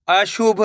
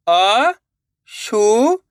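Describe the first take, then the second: First: Said in the usual way. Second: अशुभ in slow, separated syllables. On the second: Shown as a demonstration. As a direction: sound out अशुभ with gaps between syllables. (अशुभ को एक-एक अक्षर अलग करके) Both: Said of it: "एक अक्षर का उच्चारण करके".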